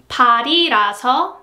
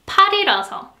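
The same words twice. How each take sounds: First: 발이라서 with the 이 kept low; low pitch after 발. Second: 팔이라서 with the 이 raised high; high pitch after 팔. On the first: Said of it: "first E ... its pitch is lower". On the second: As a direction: lift 팔이라서 up. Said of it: "lower than the second one". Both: Shown as a demonstration.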